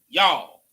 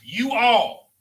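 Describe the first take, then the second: First: It is contracted in a Southern way. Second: It is said as two full words.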